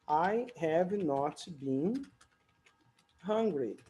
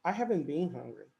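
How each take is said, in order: First: Have not is said as two separate words. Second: Have not is contracted into one short word. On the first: The speaker is annoyed or making a pointed remark. "falando tão separado assim as palavras" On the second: This is ordinary everyday speech. "a fala natural vai fazer com que você acabe abreviando mais"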